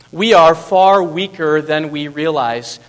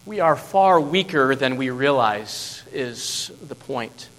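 First: Slow, loud, each word weighted; louder repeat. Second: Said in the usual way. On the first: Shown as a demonstration. Preacher repeating the lesson to the church, slow and loud. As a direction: land the point on the room. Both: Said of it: "repeated key sentence".

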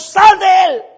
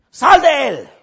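First: High, loud chanted order together; group shout. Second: High, loud order to the demon; commanding shout. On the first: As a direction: everyone yell it together. Todos juntos, muchachos. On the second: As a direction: bark the command out. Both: Acted.

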